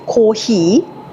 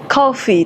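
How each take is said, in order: First: It sounds like Japanese 'kōhī'. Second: It sounds like English 'coffee'. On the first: The speaker calls it right. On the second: The speaker calls it wrong.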